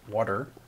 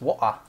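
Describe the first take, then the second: First: The middle consonant sounds like a soft d. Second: The middle consonant is dropped entirely. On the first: "I say W A D E R" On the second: "she just drops the T altogether"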